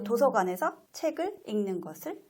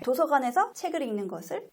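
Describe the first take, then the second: First: A pause comes after every single word. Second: Pauses fall only between meaningful phrase units. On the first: The reader is only decoding without grasping the meaning. The speaker calls it wrong. "그냥 띄어쓰기 한 대로 띄어 읽는" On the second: The reader understands what is being read. The speaker calls it right. "의미 단위로 띄어 읽는"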